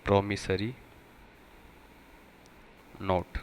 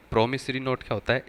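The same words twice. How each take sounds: First: प्रॉमिसरी नोट said slowly, word by word; spelled out slowly. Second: Said in the usual way. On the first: Shown as a demonstration. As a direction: pause between प्रॉमिसरी and नोट. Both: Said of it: "एक होता है प्रॉमिसरी नोट्स".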